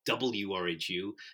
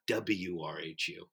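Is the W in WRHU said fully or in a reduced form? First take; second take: full; reduced. First: The W is said fully and carefully. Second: The W is clipped and reduced. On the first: The speaker calls it right. "it's WRHU" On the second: The speaker calls it wrong. "not WRHU. Because it's only one step closer to saying W"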